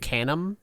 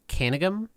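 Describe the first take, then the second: First: The surname is said with two syllables. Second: The surname is said with three syllables. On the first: The speaker calls it wrong. "I would have said Canum, but it's not Canum" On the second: The speaker calls it right. "It's John Van Canegum, I think"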